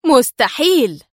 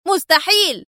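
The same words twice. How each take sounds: First: "مستحيل!" cried out in disbelief, moderately loud; "مستحيل!" as astonished disbelief, not yet rage; stunned exclamation. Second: "مستحيل!" screamed much higher in rage; "مستحيل!" as an enraged high yell; furious scream. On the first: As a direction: gasp out "مستحيل!" in shock. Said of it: "هتف ديفيد بالكلمة في ذهول". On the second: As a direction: hurl "مستحيل!" as he lunges for the gun. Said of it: "صارخا". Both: Acted.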